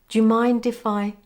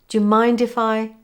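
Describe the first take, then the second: The two takes are said the same way.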